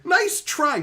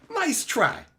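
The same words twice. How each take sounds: First: High mocking nice try; teasing. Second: Teasing again. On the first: Teasing a chatter, a high mocking dismissal. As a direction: call out the chat's trick playfully. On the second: Teasing chat once more, high mocking dismissal. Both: Real, not acted.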